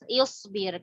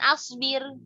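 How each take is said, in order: First: The word begins with an i vowel. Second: The word begins with an a vowel. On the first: The speaker calls it right. "Hamzahnya juga ikut dibaca kasroh" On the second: The speaker calls it wrong. "Bukan asbir"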